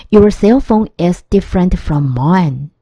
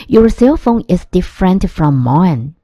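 The two takes are said the same way.

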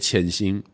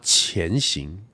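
First: The first syllable does not have a rising tone. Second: The first syllable has a rising second tone. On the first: "我们会讲我说潜行" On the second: "正确说法好像是要发潜行"

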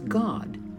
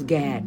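First: The vowel is a broad 'aw' sound. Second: The vowel is a flat 'a' sound. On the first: The speaker calls it right. "his name was God. ... you would spell it made G-A-W-D" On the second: The speaker calls it wrong. "They say his name was Gad. No"

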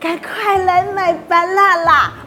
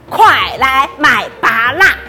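First: The call is said quietly and softly. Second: The call is said loudly and forcefully. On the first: "你这声音太小了吧，大家都听不到" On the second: "那我大声一点好了"

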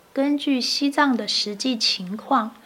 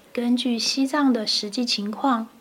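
Both takes have the same delivery.

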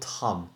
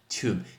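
First: The vowel is short, like in 'Tom'. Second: The vowel is long, like in 'tool'. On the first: The speaker calls it wrong. "很多人说Tom" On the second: The speaker calls it right. "这个叫Tomb"

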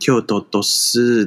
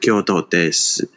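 First: The ending is slightly lengthened and spoken gently. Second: The ending is short, plain and standard. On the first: This is the local Kyoto dialect way of saying it. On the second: This is the standard way of saying it.

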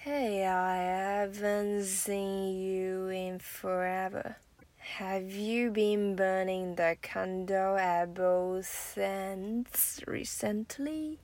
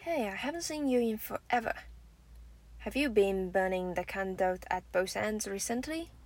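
First: It is said slowly, with the linking shown. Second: It is said at a normal, natural speed.

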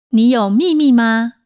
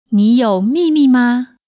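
Both takes have the same delivery.

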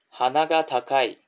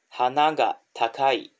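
First: The pitch stays high on the particle after hana. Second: The pitch drops on the particle after hana. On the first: The person is proud. "那这边花が这个が呢，就还是在维持在高点，而没有降下来。" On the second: The flowers are expensive. "花が这个が呢，语调就降下来了。"

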